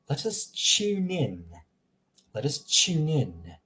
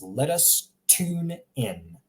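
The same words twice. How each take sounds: First: Slow British accent, "tune" as "chune". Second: Slow American accent, "tune" as "toon". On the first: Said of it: "in England, they would read it". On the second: Teacher comparing accents for learners, American accent. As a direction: read slowly in an American accent, plain t in "tune". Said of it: "in an American accent". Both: Shown as a demonstration.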